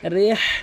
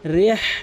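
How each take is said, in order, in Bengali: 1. h ধ্বনিটি গলার গভীর থেকে আসে। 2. h ধ্বনিটি গলার গভীর থেকে আসে।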